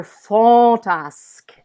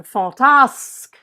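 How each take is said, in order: First: Fantasque with first syllable fan- long and loud; insisting accent. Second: Fantasque with the weight on -tasque; slow fantasque, higher on the final syllable; stress on last syllable. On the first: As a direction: lean hard on the FAN of fantasque. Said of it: "insisting accent that tells us". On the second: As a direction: lean on the end of fantasque. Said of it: "Does tasque tell me". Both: Shown as a demonstration.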